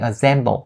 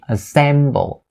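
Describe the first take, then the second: First: The second syllable starts with a buzzing Z sound. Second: The second syllable starts with a hissing S sound. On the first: The speaker calls it wrong. "don't turn the S sound into a Z sound and say assemble" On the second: The speaker calls it right. "it has to be assemble"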